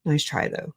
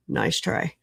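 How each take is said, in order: First: Said in the usual way. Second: Whispered teasing aside. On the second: Real, not acted. Streamer teasing a wrong definition, whispered. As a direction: drop to a whisper for the dig.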